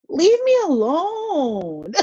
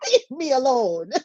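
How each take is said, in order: First: High, very slow whiny wail with a laugh; mock crying whine. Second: Mock crying whine. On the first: Fed up with family demands. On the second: Repeats plea, mock crying.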